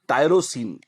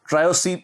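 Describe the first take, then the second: First: It begins with 'tie-ro', the r after the vowel. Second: It begins with 'try-o', the r before the vowel. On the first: The speaker calls it right. "ये टायरोसीन है, T Y आर" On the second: The speaker calls it wrong. "ट्रायोसीन में बोल जाता हूं, उच्चारण में दोष है मेरे"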